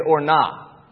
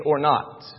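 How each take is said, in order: First: "or not" clipped to "or nah"; slang pronunciation. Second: Said in the usual way. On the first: Retold or imitated. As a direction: say "not" as "nah", dropping the final t. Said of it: "young people got where they say the phrase". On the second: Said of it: "which means".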